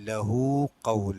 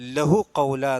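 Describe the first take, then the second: First: The vowel after the h is lengthened. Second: The vowel after the h is short. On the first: The speaker calls it right. "ഹാവിന് ശേഷം ചെറിയൊരു വാവിട്ടുണ്ടാവും" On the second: The speaker calls it wrong. "എന്നല്ല"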